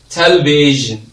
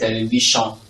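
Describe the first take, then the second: First: The middle consonant is a zh sound. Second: The middle consonant is not a zh sound. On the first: The speaker calls it right. "this is a consonant sound. Zh" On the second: The speaker calls it wrong. "Most of you say television"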